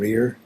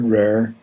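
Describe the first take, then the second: First: It is said with a standard pronunciation. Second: It is said with a County Down pronunciation.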